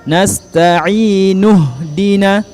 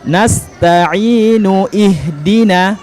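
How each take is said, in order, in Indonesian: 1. Huruf nun langsung masuk ke 'hdina' tanpa vokal. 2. Vokal 'i' dilafalkan terpisah sebelum 'hdina'. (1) "langsung dari nun langsung ke ha" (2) "jangan lagi dibaca nasta'inu ihdina"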